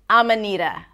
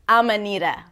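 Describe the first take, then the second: First: The words blur together; the d sounds like r. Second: The same.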